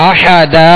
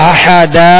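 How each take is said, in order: Both takes have the same delivery.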